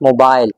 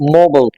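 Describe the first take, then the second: First: It is said in a British accent. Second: It is said in an American accent. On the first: "In British English, this word is usually pronounced as mobile" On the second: "But in American English आप इसको बोलेंगे mobile"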